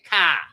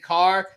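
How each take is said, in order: First: The R at the end is dropped. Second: The R at the end is pronounced.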